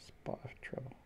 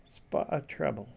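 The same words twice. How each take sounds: First: Soft unvoiced whisper of the phrase; hushed, secret whisper. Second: Said in the usual way. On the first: Shown as a demonstration. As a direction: breathe it out with no voice.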